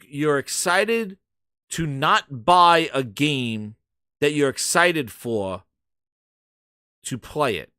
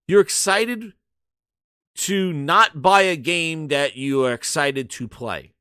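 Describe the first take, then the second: First: It is said slowly. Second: It is said at normal, faster speed.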